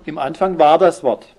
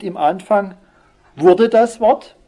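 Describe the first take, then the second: First: "war" weighted, falling to a firm close; correct wording stressed. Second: "Im Anfang wurde das Wort" lifted high, loud and slow; wrong wording stressed. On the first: Preacher gives the true Luther wording, firm and falling. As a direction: settle on "Im Anfang war das Wort" as the right reading. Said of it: "sondern, wie heißt es?". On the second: Preacher mocks the wrong reading, high, loud and slow. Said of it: "es heißt nicht". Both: Shown as a demonstration.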